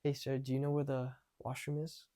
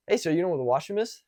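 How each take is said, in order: First: Soft, held-back question; timid first attempt. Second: Quick, more confident question; a bit louder. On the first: First nervous practice asking a stranger for the washroom, timid. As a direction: ask softly, barely putting it out. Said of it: "at very first, it would be like this". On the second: Later practice asking a stranger for the washroom, louder. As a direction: speak up and ask it briskly. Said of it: "I said it a bit louder". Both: Shown as a demonstration.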